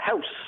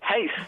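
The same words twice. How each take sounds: First: The vowel is plain, without the posh shift. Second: The vowel is shifted, posh south Dublin style. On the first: The speaker calls it right. "instead of house" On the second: The speaker calls it wrong. "they also say the word house"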